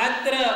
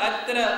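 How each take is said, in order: The two takes are said the same way.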